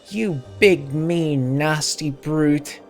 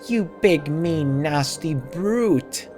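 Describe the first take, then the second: First: The word brute gets little extra stress. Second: The word brute gets strong extra stress.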